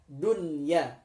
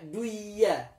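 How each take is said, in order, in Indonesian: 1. Bunyi n terdengar jelas sebelum y. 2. Bunyi n menyatu dengan y dan hilang. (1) "dibacanya menjadi jelas dunya" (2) "tidak boleh dibaca duya"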